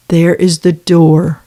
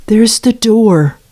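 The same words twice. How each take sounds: First: Said in the usual way. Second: Higher, slow, pointed "There's the door"; pointed dismissal. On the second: Real, not acted. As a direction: show him out, each word drawn out. Repeats the dismissal twice.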